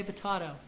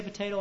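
First: Potato with a broad AH in the middle; potato, middle vowel as in father; alternate pronunciation. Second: Potato with a long AY in the middle; potato, middle vowel as in day; standard pronunciation. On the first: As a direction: say potato as puh-TAH-toh. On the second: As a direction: say potato as puh-TAY-toh. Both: Shown as a demonstration. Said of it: "however you want to pr-, pronounce it".

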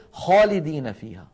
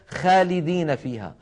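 First: خالدين with a full, dark خا. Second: خالدين with a thinned front-vowel خا; light wrong kha. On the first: Teacher shows how Arabs say it, heavy خالدين. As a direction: lift the first letter of خالدين to the palate. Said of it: "بل يقولون". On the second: Teacher shows what Arabs don't say, light خالدين. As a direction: say خالدين without heaviness on the first letter. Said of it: "لا يقولون". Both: Shown as a demonstration.

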